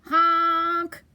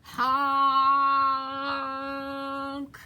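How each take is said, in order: First: Loud, held honk of alarm; scared truck honk. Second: Long, held honk on one note; yelled truck honk. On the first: Stuck dump truck crying out, scared honk. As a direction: honk out for rescue. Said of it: "and he sounded scared". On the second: Dump truck yelling to come through, long honk. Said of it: "yelled the dump truck". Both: A narrator's reading.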